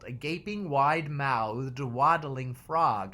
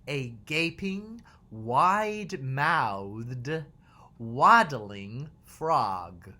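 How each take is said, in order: First: The phrase is said quickly. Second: The phrase is said at a normal pace.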